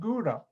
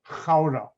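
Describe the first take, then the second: First: Gouda is said with an American English G. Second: Gouda is said with a Dutch throaty G. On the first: "Americans pronounce it Gouda" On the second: "they were surprised I could pronounce it correctly"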